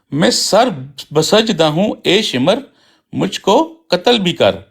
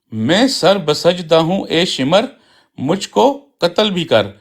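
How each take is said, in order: Both takes have the same delivery.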